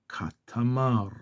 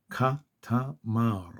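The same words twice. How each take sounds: First: Said in the usual way. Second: קטמר syllable by syllable, ka, ta, mar; slowed down. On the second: Shown as a demonstration. Teacher slows the reading down, קטמר as ka, ta, mar. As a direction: break קטמר into three slow, separate parts. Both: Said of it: "back, slow it down".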